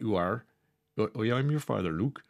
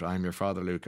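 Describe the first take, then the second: First: Half-hearted West Country farmer; rough West Country accent. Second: Said in the usual way. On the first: Retold or imitated. Presenter imitating Darth Farmer for listeners, rough West Country accent. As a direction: have an unsure go at West Country. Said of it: "I don't know what a West Country accent sounds like". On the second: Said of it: "the ultimate spoiler about".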